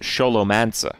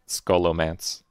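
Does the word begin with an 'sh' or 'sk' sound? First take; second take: sh; sk. First: The word begins with an 'sh' sound. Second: The word begins with an 'sk' sound. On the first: This is the original pronunciation. "But the original word is Sholomance" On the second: This is the English pronunciation. "in English, it's definitely Skolomance"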